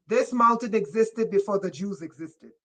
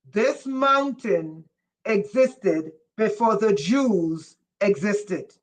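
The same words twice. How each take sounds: First: Said in the usual way. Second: Slow emphatic repeat. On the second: Shown as a demonstration. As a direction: repeat it slowly for the ones who missed it. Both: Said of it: "I said".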